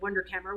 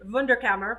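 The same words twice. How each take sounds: First: The word is said with American pronunciation. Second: The word is said with German pronunciation.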